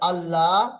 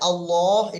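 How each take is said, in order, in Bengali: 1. l এর উচ্চারণ পাতলা শোনায়, মুখ খোলা থাকে। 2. l এর উচ্চারণ মোটা শোনায়, ঠোঁট গোল থাকে। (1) "এটা বারিক" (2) "এটা পুর"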